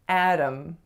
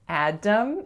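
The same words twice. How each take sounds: First: The middle consonant is a quick flap sound. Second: The middle consonant is a full D sound. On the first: The speaker calls it right. "It's really a flap sound" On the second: The speaker calls it wrong. "it's not a D sound. So it's not Adam"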